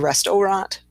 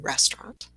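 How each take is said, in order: First: The word is said with three syllables. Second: The word is said with two syllables. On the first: The speaker calls it wrong. "we don't say restaurant" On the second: The speaker calls it right. "the middle syllable in this one is uh, is dropped"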